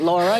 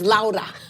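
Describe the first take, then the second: First: The name is said with an English pronunciation. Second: The name is said with a Spanish pronunciation. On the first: The speaker calls it wrong. "your name isn't Laura" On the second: The speaker calls it right. "your name is Laura. Say it correctly"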